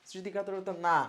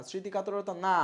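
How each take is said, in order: Both takes have the same delivery.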